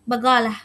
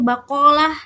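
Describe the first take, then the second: First: The middle consonant is a hard g sound. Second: The middle consonant is a k sound. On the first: "dalam aksen Jordan bagalah" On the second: "dibaca dalam M S A itu bakolah"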